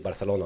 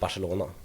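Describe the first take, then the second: First: It is said in a local Spanish-like way. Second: It is said in a Swedish accent. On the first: The speaker picked it up while living there. "that is how I say Barcelona now in in English" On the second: The speaker says it this way in Swedish. "in Swedish I pronounce it Barcelona"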